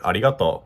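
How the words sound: It is said with a Japanese accent. "in Japanese it'd be like"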